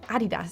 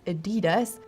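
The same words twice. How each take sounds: First: The stress is on the first syllable. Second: The stress is on the second syllable. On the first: The speaker calls it right. "it's actually Adidas, so the emphasis is at the A" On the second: The speaker calls it wrong. "often gets mispronounced as Adidas"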